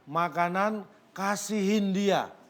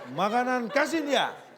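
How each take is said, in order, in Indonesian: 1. Frasa itu diucapkan perlahan, suku kata demi suku kata. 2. Frasa itu diucapkan dengan kecepatan percakapan yang normal.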